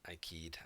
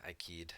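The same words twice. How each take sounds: First: Said in the usual way. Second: Whispered. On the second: Pretend. Repeats phrase, second whispered.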